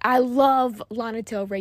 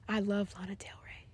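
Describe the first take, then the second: First: The voice is loud and forceful. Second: The voice is low and subdued. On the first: "That sounds aggressive" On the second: "That was low"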